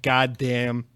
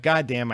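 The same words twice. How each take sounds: First: "God damn" said deflated, as if hurt by the insult; stung god damn. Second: "God damn" said with pleased, touched appreciation; grateful god damn. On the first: Host reacting to a mean viewer comment, hurt "God damn". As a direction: let "God damn" drop like a stung sigh. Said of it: "and I'll be like". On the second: Host reacting to a kind viewer comment, touched "God damn". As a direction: let "God damn" land as moved thanks. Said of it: "And I'll be like". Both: Retold or imitated.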